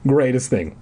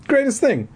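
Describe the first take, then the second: First: Said in the usual way. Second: Much higher, squeaky; high squeaky repeat. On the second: Shown as a demonstration. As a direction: pitch it way up.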